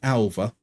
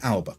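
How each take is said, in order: First: The middle consonant is a v sound. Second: The middle consonant is a b sound. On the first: The player is Catalan. "in Catalan, B's are pronounced as V" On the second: The player is not Catalan. "if he's not Catalan"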